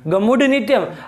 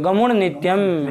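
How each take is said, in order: First: The consonant before nityam is a plain d. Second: The consonant before nityam is a nasal n. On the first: "जलाम Jaswant लग के ड कर देगा" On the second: "तो वही पंचम हो जाता है"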